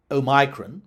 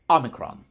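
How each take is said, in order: First: Omicron as oh-MY-kron, stressed on MY; variant C. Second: Omicron as AH-muh-kron, stressed on the first syllable; short O and front stress on Omicron; variant F. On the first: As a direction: stress the middle of Omicron, long I as in "my". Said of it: "variant C". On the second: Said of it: "and variant F". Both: Shown as a demonstration.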